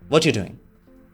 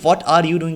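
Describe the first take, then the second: First: 'What you' blends into a sound like 'watcher'. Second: Each word is said fully and separately. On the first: "वॉचर बन जाता है" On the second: "इस व्हाट are यू doing के बजाय"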